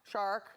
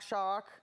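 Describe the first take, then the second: Both takes have the same delivery.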